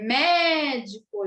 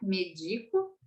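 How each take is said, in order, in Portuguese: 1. O primeiro E soa aberto. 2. O primeiro E soa fechado. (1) "precisa de um acento para ficar com esse E mais aberto" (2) "Senão ficaria médico"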